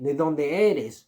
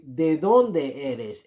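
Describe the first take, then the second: First: Said in the usual way. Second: Each syllable said slowly; slow, clear teacher model of ¿De dónde eres?; slow model phrase. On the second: Shown as a demonstration. Teacher slowly models ¿De dónde eres? for learners. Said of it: "you have to say".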